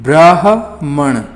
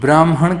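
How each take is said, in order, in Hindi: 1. 'ह' की ध्वनि 'म' से पहले आती है। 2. 'ह' की ध्वनि 'म' के बाद आती है। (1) "हा की ध्वनि पहले आ रही है" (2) "ब्राह्मण में हम भी काफ़ी गलती कर देते हैं"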